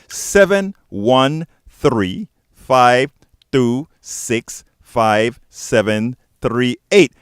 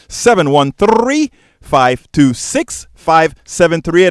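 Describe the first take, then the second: First: The number is said at a slower pace. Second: The number is said at a fast pace.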